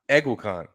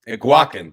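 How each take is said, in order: First: The last syllable sounds like 'con'. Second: The last syllable sounds like 'kin'. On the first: The speaker calls it wrong. "everyone's been saying Egwacon. It's not Egwacon" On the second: The speaker calls it right.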